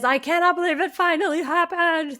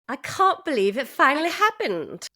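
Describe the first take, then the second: First: It is said in an American accent. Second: It is said in a British accent.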